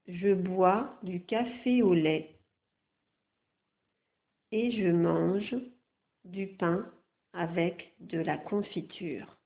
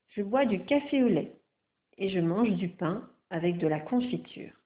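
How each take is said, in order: First: The sentence is read much more slowly. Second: The sentence is read at a normal pace.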